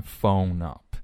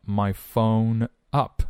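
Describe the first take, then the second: First: "phone up" joined as "pho-nup"; linked n. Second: Said in the usual way. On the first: Shown as a demonstration. Teacher linking the words for learners, linked pronunciation. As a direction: carry the n of "phone" onto "up". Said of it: "up连读，phone up". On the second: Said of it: "连读".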